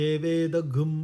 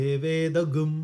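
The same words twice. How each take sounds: No difference in how they are said.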